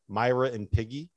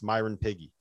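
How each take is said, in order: First: The phrase is said slowly with each word separate. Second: The phrase is said fast with the words run together.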